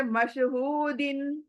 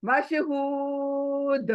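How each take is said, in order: First: Said in the usual way. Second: मशहूद slow with a bounced दाल at the end; qalqala stop. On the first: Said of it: "यहाँ पर दिन है". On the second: Shown as a demonstration. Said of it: "दाल कलकला".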